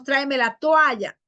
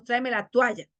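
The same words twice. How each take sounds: First: Said in the usual way. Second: "toalla" said as tualla; hiatus made diphthong. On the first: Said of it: "no decimos". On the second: Shown as a demonstration. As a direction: glide o to u in "toalla".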